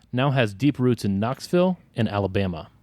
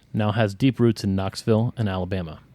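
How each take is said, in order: The two takes are said the same way.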